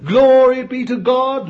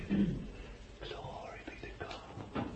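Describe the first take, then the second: First: High, loud cry of glory; shouted praise. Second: Slow breathless whisper of awe; whispered praise. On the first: Preacher at his peak, crying glory aloud. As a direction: ring it out to the rafters. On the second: Preacher awed by the descending Spirit, whispering. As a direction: hush it like a prayer. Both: Real, not acted.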